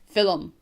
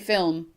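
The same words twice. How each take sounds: First: The word is said with two syllables. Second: The word is said with one syllable. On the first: This is how it is said locally. "we use two syllables" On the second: This is how others say it. "We don't say film"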